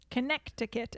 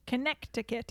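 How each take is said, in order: First: It is said with a French accent. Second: It is said with a French accent.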